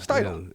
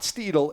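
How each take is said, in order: First: The first vowel sounds like 'eye'. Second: The first vowel sounds like 'ee'. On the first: The speaker calls it right. "You pronounce the I, not the E" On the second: The speaker calls it wrong. "it's not Steedle"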